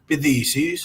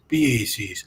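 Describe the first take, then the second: First: It is said in the TH dialect. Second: It is said in the Y dialect.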